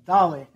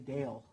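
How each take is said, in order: First: The word has a non-American, Spanish-style pronunciation. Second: The word has an American English pronunciation.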